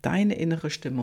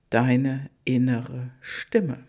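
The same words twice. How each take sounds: First: Said in the usual way. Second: "deine innere Stimme" drawn out slowly, leaning on "deine"; slow emphasis. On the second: Shown as a demonstration.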